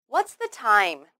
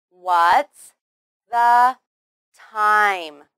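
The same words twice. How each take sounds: First: Said in the usual way. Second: WHAT'S, THE, TIME said slowly, loudly and separately; a clear pause after "What's" and after "the"; word by word. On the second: Shown as a demonstration. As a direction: model the question one loud word at a time. Teacher models word by word.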